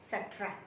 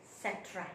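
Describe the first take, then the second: No difference in how they are said.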